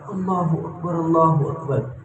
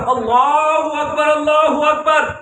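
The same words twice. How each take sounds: First: It is said softly and quietly. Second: It is said loudly and strongly.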